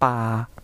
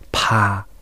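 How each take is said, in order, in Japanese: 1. 息を強く出さずに発音します。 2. 息を強く出して発音します。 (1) "パの無気音は" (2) "有気音でやってみると"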